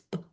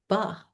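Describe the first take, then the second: First: Only a short popping b, no vowel. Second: An uh vowel follows the b sound. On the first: The speaker calls it right. "just the little popping sound" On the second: The speaker calls it wrong. "Nope, that's not, it's hard to say it without the ba"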